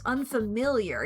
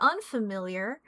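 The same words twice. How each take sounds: First: The stress falls on the ordinary syllable. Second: The stress falls on an odd syllable. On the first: The speaker calls it right. "Unfamiliar is typically how it tends to be" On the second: The speaker calls it wrong. "I don't know why I why I put the stress on that syllable"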